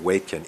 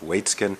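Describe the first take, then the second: First: The name is said without a ts sound. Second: The name is said with a ts sound. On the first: The speaker calls it wrong. "embarrassingly mispronounced yesterday as" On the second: The speaker calls it right. "It's Waitzkin"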